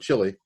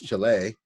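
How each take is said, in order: First: The name is said with its older pronunciation. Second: The name is said with its newer pronunciation. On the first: This is how it was said in the past. "When I grew up, we used to call it Chile" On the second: This is how it is said today. "but now it's Chile"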